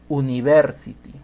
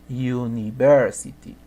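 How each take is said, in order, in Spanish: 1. Empieza con un sonido vocálico simple. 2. Empieza con un sonido y. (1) "No digo university" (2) "en la pronunciación se dice o inicia con Y"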